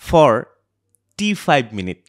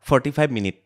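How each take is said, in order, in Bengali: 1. প্রথম দুটি সিলেবলের মাঝে একটি ছোট বিরতি থাকে। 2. প্রথম দুটি সিলেবল কোনো বিরতি ছাড়াই একসঙ্গে বলা হয়। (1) "ভালকৈ যদি আপোনালোকে তাত প্ৰনাউন্স কৰে" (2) "যদি এনেকৈ কওঁ আপোনালোকে ভাবিব ফৰ্টি ফাইভ মিনিট"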